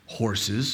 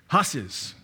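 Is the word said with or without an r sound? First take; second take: with r; without r. First: The word is said with an r sound. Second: The word is said without an r sound. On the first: This is how outsiders say it. "if you come from out of state" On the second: This is the local way of saying it. "That's how we say it"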